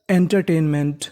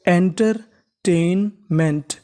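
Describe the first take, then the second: First: Said in the usual way. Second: entertainment very slow, broken into enter, टेन, meant; slow, in parts. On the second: Shown as a demonstration. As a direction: sound out entertainment part by part, pausing after enter and after टेन. (Entertainment को बहुत धीरे, एंटर-टेन-मेंट में तोड़कर बोलें) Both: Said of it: "तो meaning बन गई हमारी".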